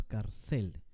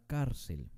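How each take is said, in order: First: "cárcel" wrongly stressed on a long CEL; stress on last syllable. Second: "cárcel" with a strong CÁR and weak cel; stress on penultimate syllable. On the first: Teacher showing how we don't say "cárcel", stressed on CEL. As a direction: say car-CEL, hitting the end of "cárcel". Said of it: "No decimos cárcel". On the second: Teacher presenting "cárcel" as a grave word, stressed on CÁR. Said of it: "el énfasis está en la penúltima". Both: Shown as a demonstration.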